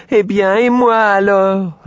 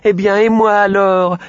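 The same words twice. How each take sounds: First: Plus aigu, plus fort et plus lent; étirer la plainte du cochon; cri plaintif du cochon. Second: Voix aiguë et forte de petit cochon; cri du petit cochon. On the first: (cri traînant du petit cochon) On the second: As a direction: crier de toutes ses forces, essoufflé. (voix de cochon qui crie, aiguë et forte) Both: A narrator's reading. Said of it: "en criant de toutes ses forces".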